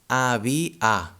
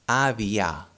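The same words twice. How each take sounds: First: The final vowel is a full open a. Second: The final vowel is a full open a.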